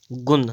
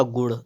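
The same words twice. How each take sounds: First: गुण with a dental n; wrong pronunciation. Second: गुण with retroflex ṇ; correct pronunciation. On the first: Teacher reading the error, गुण with dental n. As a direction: end गुण on plain n. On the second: Teacher correcting, गुण with retroflex ṇ. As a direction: curl back to end गुण. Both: Shown as a demonstration. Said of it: "इसका क्या हो जाएगा".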